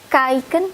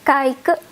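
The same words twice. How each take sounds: First: The final n sound is clearly pronounced. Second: The final n sound is left off.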